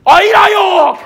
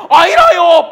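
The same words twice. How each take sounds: First: Higher, put-on Gyeongsang denial; Peter denying. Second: "아이라요" said higher, laughing through it; laughing denial. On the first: Peter denies to the woman, higher mock dialect voice. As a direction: brush her off in dialect, pitched up. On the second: Retold or imitated. Peter denies again, laughing higher mock voice. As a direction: deny again while giggling. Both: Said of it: "옆에 웬 아낙네가".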